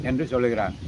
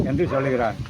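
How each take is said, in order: Both takes have the same delivery.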